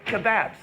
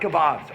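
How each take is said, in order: First: Kebabs is said with the local Australian pronunciation. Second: Kebabs is said with a non-Australian pronunciation.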